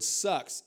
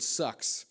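First: "sucks" punched higher and louder; stress on sucks. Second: Said in the usual way. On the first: Shown as a demonstration. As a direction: hit the word "sucks" hard. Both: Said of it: "emphasis on the word".

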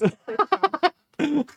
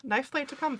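First: Slow, louder, hammed-up announcer call; mock announcer. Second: Said in the usual way. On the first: Teasing listeners like a ringside announcer. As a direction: announce the fight like a ringside showman.

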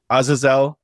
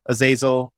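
First: Azazel said AH-zuh-zel, stress on the first syllable; first try at the name. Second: Azazel said uh-ZAY-zul, stress on the long ZAY; corrected name. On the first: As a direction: Azazel with an open AH at the start and a final ZEL. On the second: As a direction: Azazel with a weak uh at the start and ZAY in the middle. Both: Shown as a demonstration. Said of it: "not Zazel, apparently, according to Al".

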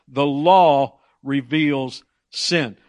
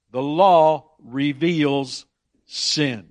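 First: Very slow, louder the law reveals sin; slow emphasis. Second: Very slow, weighted The law reveals; slow emphasis. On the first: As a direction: lay it down word by word. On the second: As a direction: spell out each word. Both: Shown as a demonstration. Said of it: "boil it down to a simple phrase".

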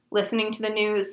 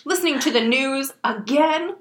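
First: Understated, weary resignation; resigned. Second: Incredulous outraged echo, rising at the end; mock outrage. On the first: Reader voices Harry answering uncle and aunt, resigned. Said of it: "said Harry in a resigned voice". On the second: Reader voices aunt and uncle questioning Harry, outraged. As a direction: repeat it back in mild outrage. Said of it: "exchanged looks of outrage". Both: A narrator's reading.

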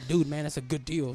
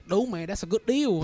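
First: Said in the usual way. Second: Raised, louder Vietnamese accent. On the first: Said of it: "Oh, I said". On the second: Shown as a demonstration. Retelling what he says to coworkers, Vietnamese accent. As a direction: put on a Vietnamese accent for the phrase. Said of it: "with a Vietnamese accent".

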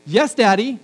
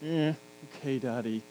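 First: Bright, higher and louder eager yes; eager daughter. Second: Low, soft, grudging okay; reluctant daughter. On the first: Dad imitates his daughter agreeing eagerly to clean her room, bright and higher. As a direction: chirp it like a happy child. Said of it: "I either get". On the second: Dad imitates his daughter grudgingly agreeing to clean her room, low and soft. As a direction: drag it out like a sulky child. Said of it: "or I get". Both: Retold or imitated.

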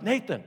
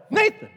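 First: Said in the usual way. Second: Much higher, loud shout of the name. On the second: Retold or imitated. Shouting at a daydreaming friend at lunch, loud. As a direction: yell it to snap him back. Third call to a zoned-out friend.

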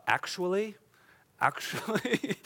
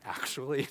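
First: Lightly voiced know-it-all, rising; a hint of a correcting pedant; pedantic scribe. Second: Said in the usual way. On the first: Preacher mimics the scribes' favorite word, lightly pedantic. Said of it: "The, the favorite word of the scribe is". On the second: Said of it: "I love saying".

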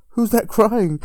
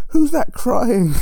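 First: Raised, higher imitation of a singer; calling out. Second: High, loud, drawn-out mock demand; louder calling out. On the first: Singer on stage hearing someone cry, imitated calling out. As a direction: call it into the crowd, mildly indignant. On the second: Singer hunting the crier at his gig, imitated loud calling out. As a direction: stretch it out across the whole venue. Singer repeats the call, escalating.

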